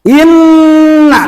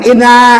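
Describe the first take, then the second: First: The n sound is held long and doubled. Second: The n sound is short and single. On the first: The speaker calls it right. "nah gitu bacanya" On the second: The speaker calls it wrong. "Jangan ... eh kemana?"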